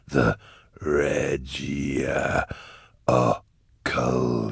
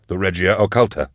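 First: Deep demon stretching "Regia Occulta" syllable by syllable; Cherubael. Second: "Regia Occulta" said quickly, slightly raised; brisk realisation. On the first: Cherubael repeats the proper name, slow eerie relish. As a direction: savour "The Regia Occulta" very slowly, low. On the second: Eisenhorn supplies the name of the hidden way, brisk realisation. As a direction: say "The Regia Occulta" firmly, without drawling. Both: A narrator's reading.

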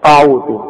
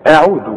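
First: أعوذ with a thick, heavy opening "a"; wrong heavy hamza. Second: أعوذ with a thin first vowel and light ayn; light hamza and ayn. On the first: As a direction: mispronounce أعوذ with a dark first vowel. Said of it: "خد بالك الخطأ، الناس تيجي تقول". (أعوذ بهمزة مفخمة غلط) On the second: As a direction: model أعوذ without any thickening. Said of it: "أعوذ، ورقق العين". (أعوذ بهمزة وعين مرققة) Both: Shown as a demonstration.

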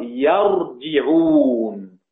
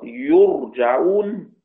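First: يرجعون as "yar-ji-'ūn", a then i, very drawn out; yarji'ūn, active vowels. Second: يرجعون as "yur-ja-'ūn", u then a, drawn out; yurja'ūn, passive vowels. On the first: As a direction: slowly show يرجعون with fatha on the ya, kasra on the jim. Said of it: "الفرق أن حفص يقرأ". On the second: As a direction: slowly show يرجعون with damma on the ya, fatha on the jim. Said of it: "ما الفرق". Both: Shown as a demonstration.

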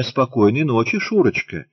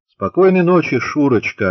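First: Put-on prim girl's model reply. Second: Echoing reply, loud. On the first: Shown as a demonstration. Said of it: "Надобно ответить мне". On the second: A narrator's reading. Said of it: "отозвался как эхо Антошин".

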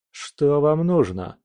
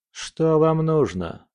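First: Higher, slow frightened question; scared. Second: Relaxed mumble. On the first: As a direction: ask it, more frightened now. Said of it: "более испуганным голосом". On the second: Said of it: "расслабленно промямлил Фёдор". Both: A narrator's reading.

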